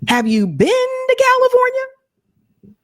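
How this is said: It is said in a Chandler impression.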